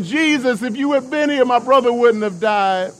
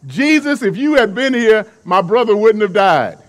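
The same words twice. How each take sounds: First: High, desperate pleading to Jesus; a begging lament, voice pitched way up; crying plea. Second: Loud, blunt accusation to Jesus; blunt, flat out. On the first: Mary fallen at Jesus's feet, high desperate crying plea. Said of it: "as she's crying". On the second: Martha confronting Jesus over her brother's death, loud and blunt. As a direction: Martha lays it straight on him, loud. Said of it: "Martha is flat out". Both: Retold or imitated.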